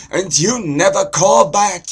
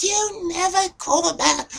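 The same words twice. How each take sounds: First: Loud, high Jewish father complaining; Jewish guy accent. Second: Very high falsetto Jewish mother; Jewish accent. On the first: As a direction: nag loudly in an exaggerated Jewish accent. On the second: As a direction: echo the nagging in a squeaky Jewish accent. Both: Shown as a demonstration. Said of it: "so there's Jewish".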